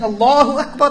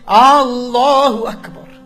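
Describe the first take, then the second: First: The opening vowel is short and plain. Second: The opening vowel is drawn out, like a question. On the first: It states that Allah is the greatest. The speaker calls it right. "Instead of saying Allahu Akbar" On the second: It asks whether Allah is the greatest. The speaker calls it wrong. "Allahu Akbar is an addition of Hamzatul Istifham"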